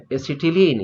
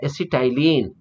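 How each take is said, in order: First: "acetylene" with a short i in the middle, a-si-ti-leen; the common classroom reading of "acetylene", -ti-leen; usual pronunciation. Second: "acetylene" with a long "tie" in the middle, a-si-tie-leen; the variant reading of "acetylene", -tai-leen; alternative pronunciation. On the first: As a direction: say "acetylene" as एसिटिलीन, "ti" rhyming with "bit". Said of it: "generally हम लोग एसिटिलीन पढ़ते हैं". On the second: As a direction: say "acetylene" as एसिटाइलिन, "ty" rhyming with "eye". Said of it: "कुछ लोग एसिटाइलिन भी पढ़ते हैं". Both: Shown as a demonstration.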